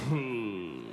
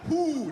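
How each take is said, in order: First: It is slurred lazily with slack lips. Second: It is said crisply with tight lips.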